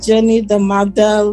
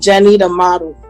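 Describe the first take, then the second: First: It is said in an imitated foreign accent. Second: It is said in the speaker's own plain accent.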